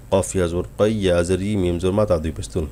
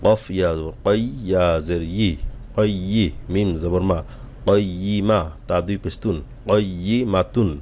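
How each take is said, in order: First: Wrong way, spelled in one unbroken stream; run-on spelling. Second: Each letter spelled on its own breath, slowly, returning to the start; slow separate spelling. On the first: Teacher showing students the common mistake, spelled in one run. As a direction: rattle the letters off without stopping. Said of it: "এভাবে একটানা বানান করি". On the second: Teacher showing students the right way, slow letter by letter. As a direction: take it one letter at a time, slowly. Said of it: "এক এক নিঃশ্বাসে আস্তে আস্তে করে পড়ার". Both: Shown as a demonstration.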